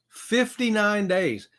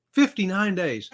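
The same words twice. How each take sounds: First: "Fifty-nine days" drawn out slowly, each word weighed; slow emphasis. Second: Said in the usual way. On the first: Real, not acted. Host slowly repeating "Fifty-nine days" to the chat, each word drawn out.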